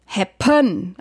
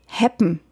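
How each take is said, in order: First: HAPPEN stressed on the end, hap-PÖN; stress shifted to second syllable. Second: HAPPEN with the first syllable stressed; normal stress. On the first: Songwriter showing misplaced melody stress, happen stressed on PEN. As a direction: lean long and hard on the second syllable of happen. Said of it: "die Betonung auf dem Pön". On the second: Songwriter checking word stress, first-syllable stress on happen. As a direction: stress the HAP in happen, second syllable light. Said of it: "Weil es eigentlich happen". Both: Shown as a demonstration.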